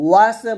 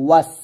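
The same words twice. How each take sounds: First: ওয়াসে with a vowel added after the s; wrong pronunciation. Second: ওয়াস closed on a sustained s, no vowel after; correct pronunciation. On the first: Teacher warns against a mistake, ওয়াসে ending on a vowel. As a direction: open the end of ওয়াসে into "se". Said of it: "বলা যাবে না". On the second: Teacher gives the proper form, ওয়াস stopped on s. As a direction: end ওয়াস on the bare sibilant. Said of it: "বলতে হবে". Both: Shown as a demonstration.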